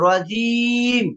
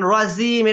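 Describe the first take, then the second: First: The middle consonant sounds like a j. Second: The middle consonant sounds like a z. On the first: The speaker calls it right. "জিমের মাকড়াটা হচ্ছে জিব্বার মধ্যখান উপরের এ, তালুর সঙ্গে লাগবে" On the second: The speaker calls it wrong. "এটা জার উচ্চারণ হয়েছে, সাদ সিন জায়ের মাখরাজ হয়ে যাচ্ছে"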